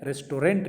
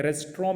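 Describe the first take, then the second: First: रेस्टोरेंट as "res-to-rent"; रेस्टोरेंट with the T sounded; wrong restaurant. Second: रेस्टोरेंट as "res-tron"; रेस्टोरेंट with no final T; correct restaurant. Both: Shown as a demonstration. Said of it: "नहीं जाते हैं".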